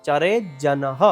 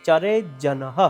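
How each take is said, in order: The two takes are said the same way.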